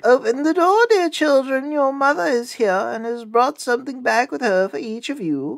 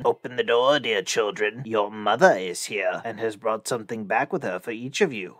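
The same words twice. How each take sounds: First: High, put-on sweet mother voice; wolf posing as mother in falsetto; softened wolf voice. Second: Lightly voiced rough wolf, low; a hint of a wolf's low, rough voice. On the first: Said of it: "made his voice soft with it". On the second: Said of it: "by the rough voice". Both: A narrator's reading.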